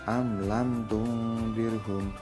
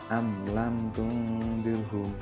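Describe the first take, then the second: No difference in how they are said.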